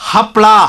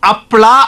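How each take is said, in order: First: The word begins with a breathy h sound. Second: The word begins with a bare vowel. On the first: The speaker calls it right. "ಹ ಹ ಅನ್ಬೇಕು" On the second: The speaker calls it wrong. "ಆ ಅಲ್ಲ"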